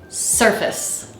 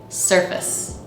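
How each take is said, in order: First: The second syllable is weak and reduced. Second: The second syllable is weak and reduced.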